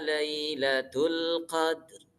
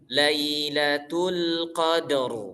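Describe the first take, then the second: First: The final r sound is nearly silent. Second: The final r sound is clearly audible. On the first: "Jadi kayak nggak kedenger malah ro-nya itu" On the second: "kita bacanya gini"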